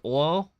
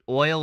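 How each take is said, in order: First: The vowel is said with a Southern drawl. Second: The vowel is said in a standard way. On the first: "as oil" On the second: "like oil"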